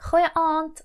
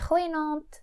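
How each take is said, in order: First: The two words have no linking n sound. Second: An n sound links the two words.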